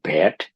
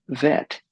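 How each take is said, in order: First: "bet" with a b sound at the start; wrong first sound. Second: "vet" with a clear v at the start; correct v sound. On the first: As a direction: start "bet" with both lips closed, as a b. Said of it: "It's not bet". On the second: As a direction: begin "vet" with lip on teeth, a buzzing v. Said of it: "It's vet". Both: Shown as a demonstration.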